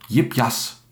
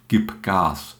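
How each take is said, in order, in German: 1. Das Wort beginnt mit einem j-artigen Laut. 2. Das Wort beginnt mit einem harten G-Laut. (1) "das als J gesprochene G am Silbenanfang, wie in Jipjas" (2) "statt Gipgas"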